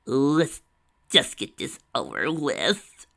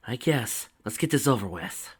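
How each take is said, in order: First: Slow, dragged out and louder, done with it; Tracy tells Lyra to get it over with, slow and dragging; drawn-out reluctance. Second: A hint of a reluctant grumble; grudging grunt. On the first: Tracy grimly decides to start. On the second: Lyra grudgingly agrees, a touch of a grunt. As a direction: Lyra answers Tracy, lightly grudging. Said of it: "Lyra grunted". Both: A narrator's reading.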